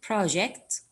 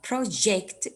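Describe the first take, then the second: First: PROject, first syllable stressed with a slight rise; noun stress. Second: ProJECT, weight on the second syllable; verb stress. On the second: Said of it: "is a verb". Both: Shown as a demonstration.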